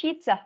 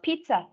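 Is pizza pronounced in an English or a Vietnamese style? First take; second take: English; English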